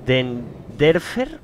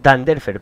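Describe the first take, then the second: First: "Denderfer" drawn out slowly, first vowel as E; hesitant misreading. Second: "Danderfer" louder, first vowel as A; corrected reading. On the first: Streamer trying to read a viewer's surname, hesitant "Denderfer" with DEN. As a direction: sound out "Denderfer" haltingly, unsure, with DEN first. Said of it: "estoy intentando leer el nombre". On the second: Streamer correcting a viewer's surname, firmer "Danderfer" with DAN. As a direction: say "Danderfer" firmly, opening on DAN. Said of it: "perdón". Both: Shown as a demonstration.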